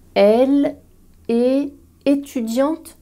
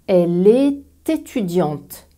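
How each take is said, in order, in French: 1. Les mots se prononcent séparément, sans liaison. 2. Le t final se lie au mot suivant.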